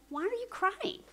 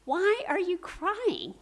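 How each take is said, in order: First: Lightly voiced angel. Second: Slow, louder, raised-pitch question; lightly voiced questioning man. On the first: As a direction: lightly act out an angel's question, pitched well up. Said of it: "the angel says". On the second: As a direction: lightly act out his question, drawn out and projected. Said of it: "man says".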